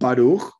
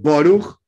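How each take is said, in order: First: It is said in a Sephardi pronunciation. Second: It is said in a Russian Ashkenazi pronunciation.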